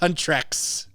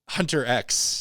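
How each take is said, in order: First: The name sounds like one word, 'huntrix'. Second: The name sounds like 'hunter' plus the letter X. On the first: The speaker calls it right. "I didn't know it was Huntrex" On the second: The speaker calls it wrong. "mispronouncing the name of the group"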